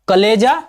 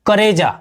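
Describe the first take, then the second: First: The middle consonant is an L sound. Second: The middle consonant is an R sound. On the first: This is the standard Hindi form. "Hindi में बोलते हैं कलेजा" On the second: This is the Magahi dialect form. "Magahi बोली में बोलेंगे कलेजा को करेजा"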